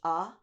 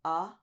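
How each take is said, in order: No difference in how they are said.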